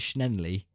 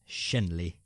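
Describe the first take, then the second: First: An extra N sound follows the first consonant. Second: No extra N sound follows the first consonant. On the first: The speaker calls it wrong. "You're putting an extra N in there. You're saying Schnenley" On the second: The speaker calls it right. "I think it's Shenley"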